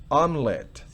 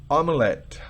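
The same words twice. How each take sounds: No difference in how they are said.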